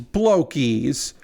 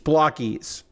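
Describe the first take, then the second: First: The first vowel is long, as in bloke. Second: The first vowel is short, as in block. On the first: The speaker calls it wrong. "It means blokies, like a bloke" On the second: The speaker calls it right. "it's apparently block"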